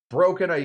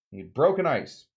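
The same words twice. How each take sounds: First: A punchy mock yell at the words broken ice. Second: Said in the usual way. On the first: Shown as a demonstration. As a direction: bark Broken ice at the ice like a drill sergeant. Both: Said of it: "You gotta yell at that ice".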